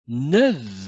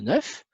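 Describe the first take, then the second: First: The word ends with a V sound. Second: The word ends with an F sound. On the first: "je dois prononcer V" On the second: "le nombre neuf"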